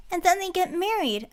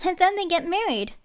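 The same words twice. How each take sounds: First: Put-on high, eager girlish blurt; excited interruption. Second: Put-on high, louder girlish blurt; excited interruption. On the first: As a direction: cut in with delight. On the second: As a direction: cut in with twinkling delight. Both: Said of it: "Anise interrupted, her eyes twinkling".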